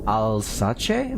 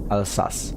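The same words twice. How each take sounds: First: Alsace said "al-SAH-chay", three syllables; mispronounced. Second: Alsace said "al-SASS", two syllables; corrected pronunciation. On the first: Real, not acted. Streamer reading a viewer's home region, Alsace mispronounced "al-sah-chay". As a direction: misread Alsace with a "chay" ending. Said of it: "I am most definitely mispronouncing". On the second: Shown as a demonstration. Streamer correcting the region's name, Alsace said "al-sass". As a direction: say Alsace with a plain s ending, no "chay". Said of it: "It's pronounced".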